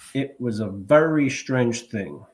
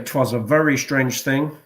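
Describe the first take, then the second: First: 'It was' is said as two full words. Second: 'It was' is squeezed into one syllable. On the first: "you can cut off a syllable" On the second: "you can even do a contraction"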